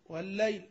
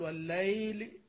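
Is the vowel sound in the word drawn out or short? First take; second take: short; drawn out. First: The diphthong in the word is kept short. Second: The diphthong in the word is drawn out long. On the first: The speaker calls it right. "ليل تقول والليل" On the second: The speaker calls it wrong. "ما تحتاج تقول والليل. والذي يتكلف المد فيها مخطئ"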